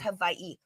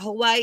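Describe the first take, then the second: First: The middle consonant sounds like a v. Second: The middle consonant sounds like an English w. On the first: The speaker calls it right. "Your W's are pronounced as V's" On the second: The speaker calls it wrong. "it's not Hawaii"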